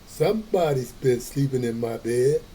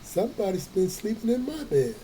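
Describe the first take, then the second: First: It is said in Papa Bear's great big voice. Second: It is said in Mama Bear's medium-sized voice.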